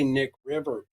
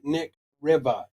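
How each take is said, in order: First: The final R sound is fully pronounced. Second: The final R sound is dropped. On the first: The speaker calls it wrong. "You can't say that with a hard R" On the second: The speaker calls it right. "Say Riva. R I V A"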